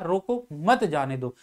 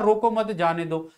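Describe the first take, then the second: First: There is a pause after the first word. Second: It is said straight through without a pause. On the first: The person should be stopped. "उसको रोकने के लिए कहा जा रहा है" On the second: The meaning is unclear. "इसमें विराम चिन्ह का प्रयोग नहीं किया है"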